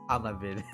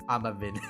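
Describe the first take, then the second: No difference in how they are said.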